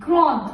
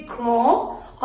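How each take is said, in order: First: "grande" with sounded final d; feminine pronunciation. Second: "grand" with silent final d; masculine pronunciation. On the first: Teacher modelling the feminine form, "grande" with final d. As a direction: close "grande" on its consonant, falling. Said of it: "अगर वो feminine है". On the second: Teacher modelling the masculine form, "grand" without final d. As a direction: end "grand" on a nasal vowel. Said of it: "अगर वो masculine है". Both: Shown as a demonstration.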